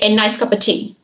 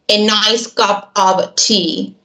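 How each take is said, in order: First: The words run together like one long word. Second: Each word is said separately and clearly. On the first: The speaker calls it right. "They'd always say" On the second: The speaker calls it wrong. "They'd never say it like this"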